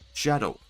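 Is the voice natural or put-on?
put-on. It is said in an odd put-on character voice. "Knuckles talks kind of weird like that"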